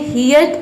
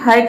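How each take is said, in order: First: The vowel sounds like 'ear'. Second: The vowel sounds like 'er'. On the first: "ये हियर्ट या फिर हर्ट नहीं होता है" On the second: "ये हियर्ट या फिर हर्ट नहीं होता है"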